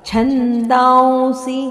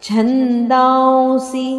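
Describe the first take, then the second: No difference in how they are said.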